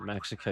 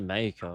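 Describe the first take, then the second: First: It is said with an English pronunciation. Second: It is said with a Spanish pronunciation. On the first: The speaker calls it wrong. "You don't pronounce it Mexico" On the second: The speaker calls it right. "You pronounce it Mexico. That's how it's pronounced"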